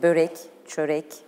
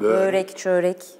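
First: The ö vowel is kept short. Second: The ö vowel is drawn out long. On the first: The speaker calls it right. "Ö sesi evet. kısadır" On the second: The speaker calls it wrong. "Uzun ö sesi uzamaz. Börek, çörek değil"

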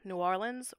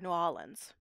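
First: The R in Orleans is clearly pronounced. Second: The R in Orleans is dropped. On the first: "the R retained with New Orleans" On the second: "That's a common space that R is going to get dropped"

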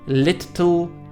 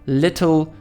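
First: The middle consonant is long and doubled. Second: The middle consonant is short and single. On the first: The speaker calls it wrong. "a nie" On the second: The speaker calls it right. "gdzie podwójne spółgłoski wymawiane są jako jedna"

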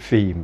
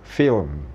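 First: The word is said as one blended Thai syllable. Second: The L is sounded and the M is added after. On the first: The speaker calls it wrong. "ของเรานี่ Film ไปเลย" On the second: The speaker calls it right. "FIL ก่อนแล้วก็ตบด้วย M ... เนี่ยก็กลายเป็น"

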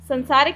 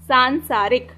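First: The first syllable has a short, plain vowel. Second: The first syllable has a long, nasal vowel. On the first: The speaker calls it wrong. "संसारिक नहीं है, संसारिक मत पढ़ना इसको" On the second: The speaker calls it right. "क्या है ये, सांसारिक"

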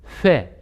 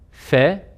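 First: The F is blown hard with pushed-out lips. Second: The F is made softly with a light lip bite. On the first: The speaker calls it wrong. "dudakları ileri uzatarak, üfleyerek bu F'yi yaparlar" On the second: The speaker calls it right. "biraz daha yumuşakça bastırmasıyla beraber F harfini okumuş oluruz"

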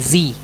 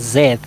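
First: It is said the American way, like zee. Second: It is said the British way, like zed.

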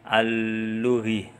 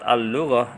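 First: The word ends with an 'i' vowel sound. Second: The word ends with an 'a' vowel sound. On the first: The speaker calls it wrong. "biar tidak dibaca al-lughi" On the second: The speaker calls it right. "diharokati fathah"

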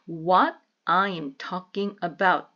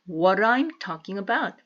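First: The words are said separately, without linking. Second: The words are linked together smoothly.

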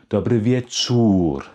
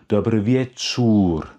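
Both takes have the same delivery.

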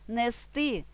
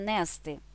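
First: The stress is on the last syllable. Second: The stress is on the first syllable. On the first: The speaker calls it right. "У дієсловах на «сти» наголошуємо останній склад" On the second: The speaker calls it wrong. "а не"

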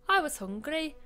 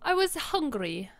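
First: It is said in a more convincing character voice. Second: It is said in a near-natural, unconvincing voice. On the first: The speaker calls it right. "I'll try again. That's a little better" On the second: The speaker calls it wrong. "I can't even do this guy"

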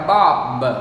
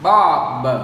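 First: The final consonant is released strongly. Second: The same.

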